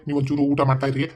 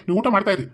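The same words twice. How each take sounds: First: Said in the usual way. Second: Raised repeat. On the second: Acted. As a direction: throw the offer back over your shoulder, higher, ending on a falling ಊಟ. Repeats the offer, leaving.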